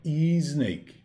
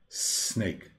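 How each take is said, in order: First: The word begins with a vowel sound before s. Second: The word begins directly with an s sound. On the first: The speaker calls it wrong. "Não é snake" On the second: The speaker calls it right. "O S inicial. A palavra é s, ó, snake"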